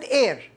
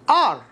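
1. الحرف المتحرك هو صوت 'air'. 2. الحرف المتحرك هو صوت 'ah' مفتوح. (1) "وليست إير" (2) "كلمة آر"

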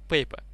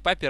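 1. Первый гласный звучит как 'ay'. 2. Первый гласный звучит как 'ah'. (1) "а пейпа. Или как там правильно это читается" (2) "не папер"

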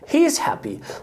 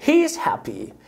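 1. كلمة is بتتلزق مع he. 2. كلمة is بتتلزق مع he.

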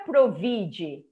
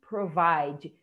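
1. A vogal tônica soa como 'ee'. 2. A vogal tônica soa como 'eye'. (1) "não é provide" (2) "e sim provide"

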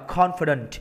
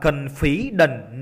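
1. Trọng âm nằm ở âm tiết thứ nhất. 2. Trọng âm nằm ở âm tiết thứ hai. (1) "câu D đáp đọc âm 1 trong thầy ha, đọc là confident" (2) "Rất là nhiều bạn đọc sai câu D nha, nhiều bạn đọc là confident. No"

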